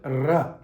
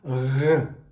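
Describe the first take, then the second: First: The R is made the English way. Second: The R is made the French way. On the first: The speaker calls it wrong. "not R" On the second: The speaker calls it right. "In French, the letter R is pronounced as R"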